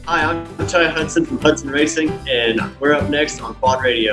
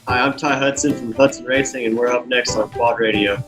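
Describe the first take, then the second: First: It is said with enthusiasm. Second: It is said in a flat, plain way.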